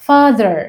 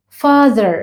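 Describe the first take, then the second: No difference in how they are said.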